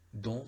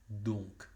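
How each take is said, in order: First: The word ends on the nasal vowel, no k. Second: The word ends with an audible k sound. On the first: The speaker calls it wrong. "don sería si, si respetamos la regla, pero no" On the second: The speaker calls it right. "en este caso es donc"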